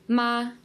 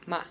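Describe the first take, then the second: First: The pitch stays high and level throughout. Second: The syllable is short, light and unstressed. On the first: "the first tone is a steady flat tone and it's a high tone" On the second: "a neutral tone, which is just very light"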